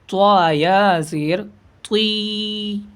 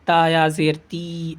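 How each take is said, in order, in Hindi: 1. t भारी है, होंठ गोल हैं। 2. t सादा है, होंठ गोल नहीं हैं। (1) "त्वा मुंह को गोल करके जबान को थोड़ा सा फोल्ड करेंगे किनारे किनारे से. ... ऐसे" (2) "ये ता इस तरीके से नहीं पड़ेगा कि ता या जेर ती, ऐसे नहीं"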